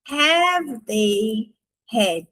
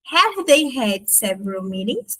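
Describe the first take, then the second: First: "Have they had?" stretched out very slowly; very slow model question; slow demo. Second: Said in the usual way. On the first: Shown as a demonstration. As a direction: drag the question out for learners. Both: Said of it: "a gente vai só inverter".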